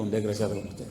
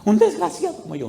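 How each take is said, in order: First: Low, soft, calm reply; understated low answer; quiet retort. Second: Imitated desperate outburst; mock yell. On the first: Retold or imitated. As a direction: echo it back calmly, voice dropped. His quiet reply to the shouting. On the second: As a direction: wail it as the distraught man. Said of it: "Y él gritaba".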